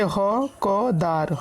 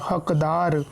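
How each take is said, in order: First: ह, क, दार spelled out with small gaps; syllable by syllable. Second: हकदार read as one whole word; joined-up word. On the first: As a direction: break it into ह, क, दार for learners. (अक्षर अलग-अलग करके) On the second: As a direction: blend the parts into हकदार, lower. (पूरा शब्द जोड़कर, हकदार) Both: Shown as a demonstration. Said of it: "इनको हम पढ़ते कैसे हैं".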